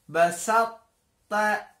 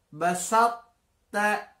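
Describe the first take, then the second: The two takes are said the same way.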